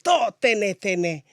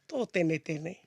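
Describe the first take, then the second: First: It is said heatedly, like in an argument. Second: It is slipped in slyly and lightly. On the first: The speaker is openly fighting. "if you're in a full blown argument" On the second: The speaker is making a sneaky dig. "trying to be sly here"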